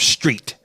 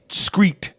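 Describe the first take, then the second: First: The word begins with an str sound. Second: The word begins with an scr sound. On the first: The speaker calls it right. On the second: The speaker calls it wrong.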